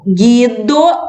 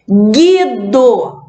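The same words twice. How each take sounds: First: Said in the usual way. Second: Guido said as gido, no U sound; model word. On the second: Shown as a demonstration. Teacher modelling silent U in Guido for kids. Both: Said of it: "eu vou circular".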